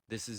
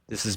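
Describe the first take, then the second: First: The voice sounds quiet and low in level. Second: The voice sounds louder and higher in level. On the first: "This is zero D B gain, probably pretty quiet" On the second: "This is back up to eighteen D B gain"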